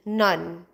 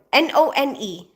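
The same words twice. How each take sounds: First: Said in the usual way. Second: N O N E spelled letter by letter. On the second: Shown as a demonstration. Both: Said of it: "Maybe it's my accent".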